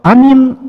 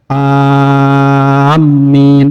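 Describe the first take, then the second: First: The a and the m are both short. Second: The m sound is doubled and held. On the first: It means safe. "A-nya pendek, Mim-nya pendek" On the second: It means those heading toward a place. "ketika mimnya ditasdidkan"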